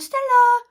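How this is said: The name is called in a playful way.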